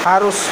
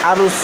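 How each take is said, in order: Both takes have the same delivery.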